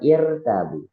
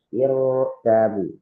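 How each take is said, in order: First: The r sound is light and thin. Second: The r sound is heavy and thick. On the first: The speaker calls it wrong. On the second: The speaker calls it right. "harus dibaca secara tebal"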